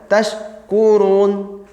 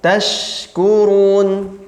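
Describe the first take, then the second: First: The air on the consonant is held back. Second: The air on the consonant flows out fully. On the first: The speaker calls it wrong. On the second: The speaker calls it right.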